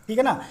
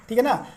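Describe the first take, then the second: No difference in how they are said.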